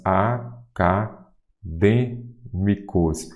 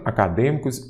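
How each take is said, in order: First: Acadêmicos very slow, a, ca, dê, mi-cos; "Acadêmicos" drawn out in separate syllables. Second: Said in the usual way. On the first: Shown as a demonstration. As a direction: sound out "Acadêmicos" with long pauses between syllables. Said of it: "o D é a antepenúltima sílaba".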